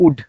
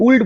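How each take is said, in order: First: "উড" said as ud, with no L; silent L. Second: "উল্ড" said as uld, with the L heard; wrong, L sounded. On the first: Teacher giving the right reading of ould, "উড" without L. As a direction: say ould as "উড", dropping the L. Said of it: "আমি কিন্তু উল্ড বলিনি". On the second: Teacher citing what learners shouldn't say, "উল্ড" with L sounded. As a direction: misread ould as "উল্ড", voicing the L. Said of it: "উল্ড বলিনি". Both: Shown as a demonstration.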